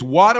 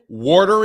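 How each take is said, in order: First: It is said in a South Chicago accent. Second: It is said in a Philadelphia accent. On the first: "It's water on the south side of Chicago" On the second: "Water in Philadelphia"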